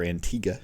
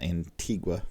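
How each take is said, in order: First: The name is pronounced the local Caribbean way. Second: The name is pronounced the usual American way.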